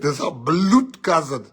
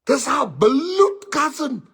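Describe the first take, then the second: First: Said in the usual way. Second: High slow whimpering bloed cousin; mock crying plea. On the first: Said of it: "repeated with crying". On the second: Friend repeats lie to teller, mock tearful whine. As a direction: whine "This our bloed cousin" slowly like near tears.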